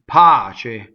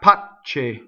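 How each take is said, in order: First: The middle consonant is short and single. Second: The middle consonant is long and doubled. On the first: The speaker calls it right. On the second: The speaker calls it wrong.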